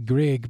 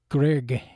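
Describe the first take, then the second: First: The name is said with an American pronunciation. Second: The name is said with a Norwegian pronunciation. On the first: "over here in the U.S., ... they say Grieg" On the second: "That's how the Norwegians would pronounce it"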